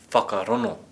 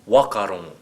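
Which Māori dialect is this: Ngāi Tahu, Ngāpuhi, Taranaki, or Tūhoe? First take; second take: Tūhoe; Taranaki. First: The 'ng' sound is replaced by an 'n'. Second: The opening 'wh' is said as a plain 'w'. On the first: "If we were from Tūhoe" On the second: "And if we were from Taranaki?"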